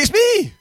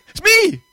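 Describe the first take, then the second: First: Loud, high, exasperated repeat; impatient voice. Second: Higher and much louder, annoyed; impatient voice. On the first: Caller not recognized on the phone, impatient shout. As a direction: say it louder, fed up they don't know you. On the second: Caller repeating to someone who doesn't recognize him, impatient. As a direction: bark it like they should know by now. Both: Pretend. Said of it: "you'll know my impatient voice".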